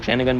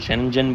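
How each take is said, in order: First: The middle consonant is a hard g sound. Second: The middle consonant is a j sound. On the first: "कुछ लोग शेंगन बोलते हैं" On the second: "कुछ शेंजन बोलते हैं"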